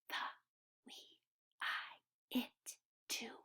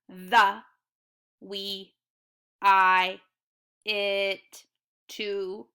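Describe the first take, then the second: First: The words are whispered. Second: The words are said in a robot voice.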